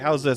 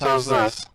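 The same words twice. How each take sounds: First: The voice sounds natural and unprocessed. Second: The voice sounds processed and robotic. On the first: "That's exactly you" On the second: "It does sound robotic"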